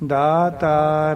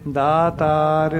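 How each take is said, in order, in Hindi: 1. पहला स्वर दीर्घ है। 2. पहला स्वर दीर्घ है।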